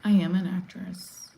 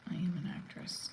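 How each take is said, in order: First: Said in the usual way. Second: Hushed, voiceless repeat; whispered. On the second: Real, not acted. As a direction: say it under your breath, almost whispering. Repeats line, second time hushed.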